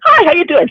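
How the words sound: It has an odd, socially awkward inflection.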